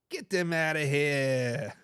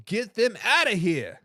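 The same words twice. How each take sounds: First: Low, drawn-out Boston accent; slow it right down in an attempted Boston accent. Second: Said in the usual way. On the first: Shown as a demonstration. Echoing a viewer's jab at the Cowgirls, Boston accent. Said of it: "best Boston accent I can get".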